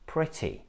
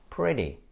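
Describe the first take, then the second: First: The middle T is a clear T sound. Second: The middle T sounds like a soft D. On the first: It sounds British. "in British English, these words sound like" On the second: It sounds American. "you should not pronounce it like D, because this is what Americans do"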